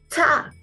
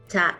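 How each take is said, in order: First: The consonant is released with a strong puff of air. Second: The consonant is released with no puff of air. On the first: "cha con mucho aire" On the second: "cha sin aire"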